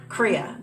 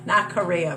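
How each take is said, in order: First: It is said as two syllables, kree-ya. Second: It sounds like Korea, with three syllables. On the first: The speaker calls it right. "Just plain Kriya" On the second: The speaker calls it wrong. "Not Korea, boy"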